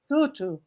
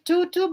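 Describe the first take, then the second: First: The name is said with softer sounds. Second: The name is said with harder, plain sounds. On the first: "I think it's more soft" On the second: "it's like tutu"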